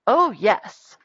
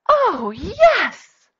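First: Said in the usual way. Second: High, loud, thrilled reply; excited yes. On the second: Acted. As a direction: answer the invitation with hammed-up delight. Acted excited answer to a question.

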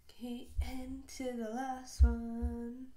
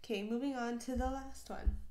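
First: Slow, louder "Okay, and to the last one" with "last" stretched long; drawn-out announcement. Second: Said in the usual way. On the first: Shown as a demonstration.

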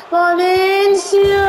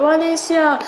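First: Excited drawn-out call. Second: Said in the usual way. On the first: Real, not acted. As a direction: stretch the name out, rising with excitement. Stretched call as he shoots.

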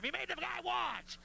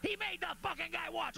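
First: Outraged accusing shout ending on watch; mock outraged yell. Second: Scandalized shout leaning on he; mock outraged yell. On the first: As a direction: holler it like a scandalized crowd, landing on watch. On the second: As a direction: holler it again, hitting he hardest. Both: Imagined crowd yelling accusation.

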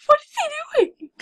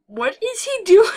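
First: Much higher, louder, stressing "What"; squealed repeat. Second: Loud, higher shout stressing "doing"; startled shout. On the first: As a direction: squeal "What is he doing?" in disbelief. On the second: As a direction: blurt "What is he doing?" at the screen. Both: Real, not acted.

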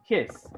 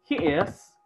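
First: "his" as one contracted syllable; forma abreviada. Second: Said in the usual way. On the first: Shown as a demonstration. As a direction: squeeze he is into "his". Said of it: "habla en forma abreviada". ("his" contraído en una sílaba) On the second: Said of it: "habla en forma normal".

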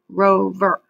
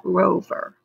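First: Rover said in two beats, ro-ver; syllable demo. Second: Rover broken into ro-ver for counting; syllable demo again. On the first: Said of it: "How many syllables do you hear". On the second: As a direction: split rover into two clear beats. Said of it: "It's got two". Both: Shown as a demonstration.

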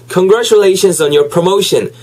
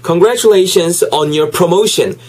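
No difference in how they are said.

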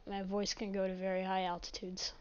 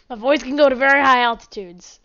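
First: Said in the usual way. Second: Loud voice demo. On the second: Shown as a demonstration. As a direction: belt it out to show off your voice.

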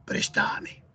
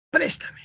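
First: "préstame" stressed on the middle syllable, pres-TA-me; Argentine verb stress. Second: Said in the usual way. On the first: Shown as a demonstration. Teacher showing how Argentinians say it, "préstame" stressed as pres-TA-me. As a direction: say "préstame" as prestáme, lengthening the TA. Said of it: "los argentinos pronuncian algunas palabras de diferente". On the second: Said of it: "Ellos no dicen".

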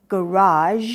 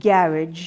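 First: Garage as American "guh-RAHZH", long final vowel; stress on second syllable. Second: Garage as British "GARR-idge", short ending; stress on first syllable. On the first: Teacher shows American style, garage stressed on the last syllable. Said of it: "ที่พยางค์หลัง". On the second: Teacher shows British style, garage stressed on the first syllable. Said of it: "stress ที่พยางค์หน้า". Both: Shown as a demonstration.

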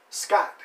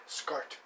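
First: Scott said loud with no R; corrected name. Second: Scott with an R slipped in, like Scart; name slip. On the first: Host correcting his friend's name, Scott without an R. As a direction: say Scott crisply, ending in a plain T. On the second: Host fumbling his friend's name, Scott as Scart. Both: Real, not acted. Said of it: "My apologies".

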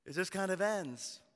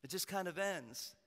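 First: Said in the usual way. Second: Softer, letting it trail away; quiet repeat. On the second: Shown as a demonstration. Pastor repeating for the congregation, softer. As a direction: drop it to a hush.

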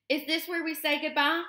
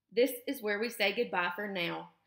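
First: Put-on high young gosling voice, rising on "goodbye"; little one asking mother, pitched up; gosling's question. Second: Even, level statement in the usual pitch; measured reply, no lift on "goodbye"; robot mother's answer. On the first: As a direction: ask it high and uncertain, lifting at the end. Gosling asks robot mother about parting. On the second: Robot mother answers the same words. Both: A narrator's reading.

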